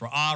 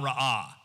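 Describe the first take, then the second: First: The final 'ah' vowel is short. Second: The final 'ah' vowel is slightly lengthened. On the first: It means to break. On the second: It means to shepherd.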